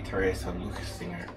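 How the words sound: The name is pronounced the German way. The speaker calls it right. "that's a very German name. ... it would be"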